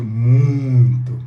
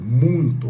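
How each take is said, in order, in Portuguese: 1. A palavra é dita com ênfase forte e marcada. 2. A palavra é dita de forma simples, sem força extra.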